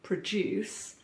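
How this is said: It is said in a British accent. "So the verb in um, the U K, we say produce"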